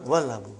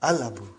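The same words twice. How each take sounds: First: "Wal Abu" with waw linked straight onto the lam; joined pronunciation. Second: "Al Abu" opening on the vowel, lam sounded; unprefixed pronunciation. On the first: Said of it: "It will become". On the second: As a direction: demonstrate "Al Abu" with a clear l. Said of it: "I will pronounce it as". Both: Shown as a demonstration.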